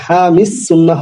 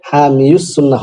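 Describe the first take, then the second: First: হামিস সুন্নাহ with no ইয়া or উ after হামি, pitched up; right way: হামিস সুন্নাহ; correct pronunciation. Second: হামিউস সুন্নাহ said wrongly with a ইউ sound after হামি; the mistaken form হামিউস, as madrasa names have it; wrong pronunciation. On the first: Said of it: "ইয়া উচ্চারণ আসবে না". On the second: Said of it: "হবে না". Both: Shown as a demonstration.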